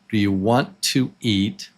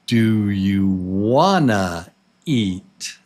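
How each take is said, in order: First: "Want to" is said as two full words. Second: "Want to" is shortened and blended into one.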